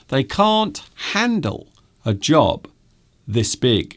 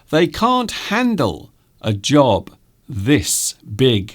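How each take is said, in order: The two takes are said the same way.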